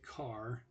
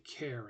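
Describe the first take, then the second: First: It begins with a k sound, like car. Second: It begins with a k sound, like care. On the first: "Other people say car" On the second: "it is actually an abbreviation for character"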